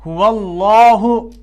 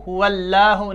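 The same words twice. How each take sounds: First: Slow हुवल्लाहु with the लाम full and thick; correct heavy lam. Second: हुवल्लाहु with a thin, light लाम, quick and plain; wrong thin lam. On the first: Teacher gives students the right heavy lam in हुवल्लाहु, slow. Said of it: "नहीं, बल्कि". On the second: Teacher shows students the wrong thin lam in हुवल्लाहु. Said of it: "ये नहीं ऐसे कि हुवल्लाहु". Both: Shown as a demonstration.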